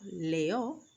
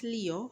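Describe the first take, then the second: First: The first vowel sounds like 'eh'. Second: The first vowel sounds like English 'ee'. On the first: The speaker calls it right. "because E in Spanish always says e" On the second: The speaker calls it wrong. "not Leo"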